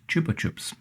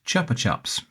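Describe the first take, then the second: First: It is said with a Spanish-style pronunciation. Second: It is said with an English-style pronunciation. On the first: "it's a Spanish brand and that that should be pronounced" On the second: "in the U K, this brand is pronounced"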